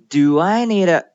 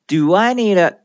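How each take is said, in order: No difference in how they are said.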